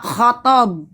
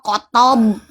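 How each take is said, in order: First: The name starts with a raspy kh sound. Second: The name starts with a plain k sound. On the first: The speaker calls it right. "tapi K sama H khotob" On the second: The speaker calls it wrong. "Kok kotob?"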